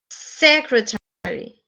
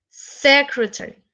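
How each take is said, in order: First: SEcretary, slow, first syllable stressed; slow model of SEcretary. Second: Said in the usual way. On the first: Shown as a demonstration. (acento en SE de secretary) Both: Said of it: "También en la primera".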